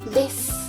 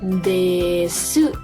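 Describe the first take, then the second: First: The final u vowel is dropped, ending in s. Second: The final u vowel is clearly pronounced. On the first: The speaker calls it right. "no se escucha el su, sino que decimos des" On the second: The speaker calls it wrong. "no lo decimos tan así"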